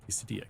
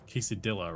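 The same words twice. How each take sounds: First: It is pronounced the standard way, not as spelled. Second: It is pronounced letter by letter, as spelled. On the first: It is meant for ordering one for real. The speaker calls it right. "practice how to actually say it properly" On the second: It is a joke to annoy someone. The speaker calls it wrong. "if you say it phono- phonetically or whatever"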